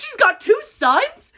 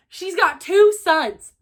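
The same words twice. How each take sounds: First: High, loud, slow disbelieving rise on two; stunned that the character has sons; shocked question. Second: High, loud, slow flat statement, falling on two; repeating the twist as fact; stunned statement. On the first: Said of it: "shocked question". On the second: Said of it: "repeats as statement". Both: Real, not acted.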